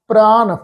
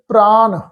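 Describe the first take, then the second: Both takes have the same delivery.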